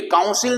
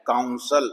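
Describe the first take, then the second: First: काउंसिल said with a full ee vowel; the wrong version, काउंसिल with a clear i; wrong pronunciation. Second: काउंसल with a short schwa in the last syllable; the right way, काउंसल ending in a weak uh-l; correct pronunciation. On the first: Teacher says the wrong way first, काउंसिल with ee. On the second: Teacher gives the correct word, काउंसल said low and soft. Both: Shown as a demonstration. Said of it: "ये भी काउंसिल नहीं है".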